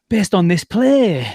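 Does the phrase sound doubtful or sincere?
sincere. It sounds sincere, not doubtful. The play was good. "like that. ... totally flips the meaning just by expressing it differently"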